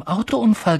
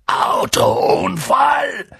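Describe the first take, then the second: First: Said in the usual way. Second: Loud, slow, drawn-out AUTOUNFALL; thundering roar. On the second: A narrator's reading. Giant enraged at the Dursleys' lie, thundering. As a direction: bellow AUTOUNFALL in raised, outraged pitch. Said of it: "donnerte Hagrid und sprang so wütend auf".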